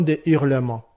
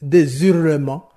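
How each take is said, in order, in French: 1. Aucun son z n'est entendu avant le dernier mot. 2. Un son z se lie au dernier mot. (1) "On dira" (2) "on ne peut pas dire"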